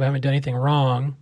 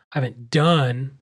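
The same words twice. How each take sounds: First: Said in the usual way. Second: Slow, leaning hard on "done"; "done" drawn out and weighted, I haven't DONE; stress on done. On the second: Shown as a demonstration. Host insisting to listeners, stress on "done". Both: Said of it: "emphasis on done".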